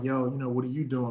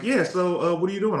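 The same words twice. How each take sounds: First: A touch softer, smooth ladies' man voice. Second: Said in the usual way. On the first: Retold or imitated. Chatting a girl up on the phone, mild smooth come-on voice. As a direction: lightly put on the smooth mack voice. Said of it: "I'm talking to her in that voice". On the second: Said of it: "she was like".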